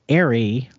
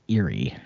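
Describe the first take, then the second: First: The word sounds like 'airy'. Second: The word sounds like 'eerie'. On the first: "they don't say airy" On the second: "They say eerie"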